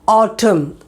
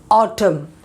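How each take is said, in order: The two takes are said the same way.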